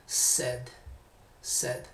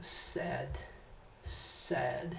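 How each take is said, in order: First: "said" said flat like Spanish "sed"; "said" with a plain Spanish e, no color; wrong said. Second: "sad" with a wider, more open English vowel; right said. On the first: Teacher shows students the wrong "said" pronunciation. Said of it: "no digan". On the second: Teacher models the better "said" sound for students. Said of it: "Traten de sonar un poquito así como". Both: Shown as a demonstration.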